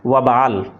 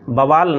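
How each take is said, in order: First: The word begins with a w sound. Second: The word begins with a b sound. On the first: The speaker calls it right. "असल में सही शब्द है वबाल" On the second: The speaker calls it wrong. "बवाल नहीं"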